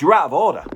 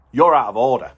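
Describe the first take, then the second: First: Firm, louder and higher; aggressive. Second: Said in the usual way. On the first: Retold or imitated. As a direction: say it aggressively to his face.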